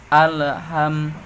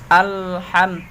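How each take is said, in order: First: The L sound bounces with an extra echo. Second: The L sound is held firmly without bouncing. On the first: The speaker calls it wrong. "Ditawalludkan dengan bacaan Alham, Alham. Sebenarnya itu salah" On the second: The speaker calls it right. "Ditekankan ke langit-langit atas"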